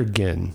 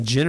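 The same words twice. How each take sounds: First: Ginn with a hard G, as in "give". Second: Ginn with a soft G, like "gin". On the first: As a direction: say Ginn starting like "get". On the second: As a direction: say Ginn starting with a J sound. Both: Shown as a demonstration. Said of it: "Is it Ginn or Ginn".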